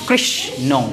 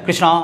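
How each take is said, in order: First: One syllable is given extra force. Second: The word is said evenly in one push. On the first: The speaker calls it right. "কোথাও তো আমি উচ্চারণে জোর দিলাম বেশি" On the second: The speaker calls it wrong. "আমরা একবারে এক ধাক্কায় বলছি না, কৃষ্ণ বলছি না"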